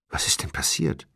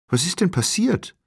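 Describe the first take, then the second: First: Hushed, nearly voiceless anxious question; trembling man. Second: High-pitched, alarmed question; startled woman. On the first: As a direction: ask it under your breath, unnerved. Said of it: "der Mann mit zitternder Stimme". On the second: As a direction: pitch leaps up in fright. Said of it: "fragte die Frau erschrocken". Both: A narrator's reading.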